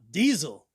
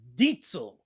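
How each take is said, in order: First: The middle consonant is a z sound. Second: The middle consonant is a ts sound. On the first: The American way of saying the name. The speaker calls it wrong. "It's not diesel" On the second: The owner's own way of saying the name. The speaker calls it right. "it's Dietzel"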